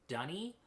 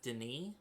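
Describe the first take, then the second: First: The name sounds like 'Dunny'. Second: The name sounds like 'Denis'. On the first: The speaker calls it wrong. "apparently it's supposed to be pronounced Dunny, which is just the worst" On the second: The speaker calls it right. "I have always read this as Denis"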